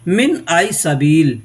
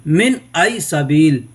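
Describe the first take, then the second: Both takes have the same delivery.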